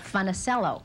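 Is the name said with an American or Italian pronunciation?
American. The name is said with an American pronunciation. This is how the family has always said it. "My family has always said Funicello. They Americanized it"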